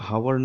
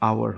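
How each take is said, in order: First: The word starts with an audible h sound. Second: The word starts with a vowel, h silent. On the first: The speaker calls it wrong. "এটার উচ্চারণ কিন্তু হাওয়ার নয়" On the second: The speaker calls it right. "আওয়ার হয়"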